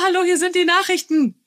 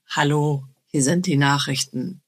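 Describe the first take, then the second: First: The voice is at its normal, higher pitch. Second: The voice is pushed down to a deeper pitch. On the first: An ordinary, unadjusted way of speaking. "Also nicht" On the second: An attempt to come across as cooler. "meine Stimme ein bisschen nach unten regulieren"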